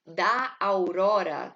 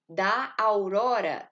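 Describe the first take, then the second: First: Slow, loud, each syllable apart; da aurora slow and loud, syllables apart; separated syllables. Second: Da aurora run together into one syllable, slow and loud; da aurora elided, slow and loud; joined syllables. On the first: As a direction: read da aurora split syllable by syllable. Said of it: "aqui, ó". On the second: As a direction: glide da aurora as a single merged syllable. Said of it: "eu tô unindo numa". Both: Shown as a demonstration.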